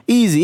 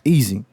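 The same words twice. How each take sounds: First: Easy said higher and louder; emphatic repeat. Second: Said in the usual way. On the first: Shown as a demonstration. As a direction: punch the repeated Easy up high. Says easy twice, second time louder.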